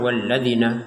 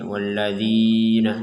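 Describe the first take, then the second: First: The long vowel is cut too short. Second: The long vowel is held for two beats. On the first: The speaker calls it wrong. "Kalau kurang walladzina gitu" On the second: The speaker calls it right. "jangan sampai lebih, ... jangan sampai kurang"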